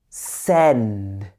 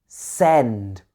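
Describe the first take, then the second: The two takes are said the same way.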